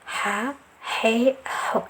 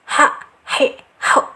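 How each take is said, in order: First: The breath and voice flow out freely. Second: The sound is held back and pressed. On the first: The speaker calls it right. "suaranya mengalir juga" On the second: The speaker calls it wrong. "itu yang keliru, sebab jangan ditahan"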